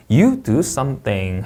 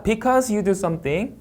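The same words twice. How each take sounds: First: Slow, SOMETHING dropping at the end; finished sentence, SOMETHING falling; falling intonation. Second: Very slow, SOMETHING climbing at the end; unfinished clause, SOMETHING going up; rising intonation. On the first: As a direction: bring SOMETHING down to close the sentence. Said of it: "하고 내려 읽습니다". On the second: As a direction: stretch it out and lift SOMETHING. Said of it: "올려 읽고요". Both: Shown as a demonstration.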